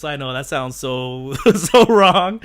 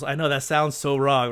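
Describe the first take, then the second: First: Laughing at himself. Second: Said in the usual way. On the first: Real, not acted. Asking chat for more polls.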